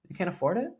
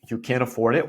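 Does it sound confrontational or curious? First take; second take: curious; confrontational. First: It sounds gently and innocently curious. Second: It sounds frustrated and confrontational.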